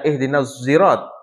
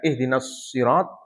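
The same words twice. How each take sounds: First: Sirat begins with a sound between s and z. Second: Sirat begins with an emphatic, heavy s sound. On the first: "antara shad dengan zai"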